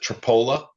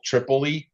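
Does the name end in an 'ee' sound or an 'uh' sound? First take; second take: uh; ee. First: The name ends in an 'uh' sound. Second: The name ends in an 'ee' sound. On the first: This is how the locals say it. "but we we pronounce it Tripola" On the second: This is how the name is written. "spelled like Tripol- Tripoli"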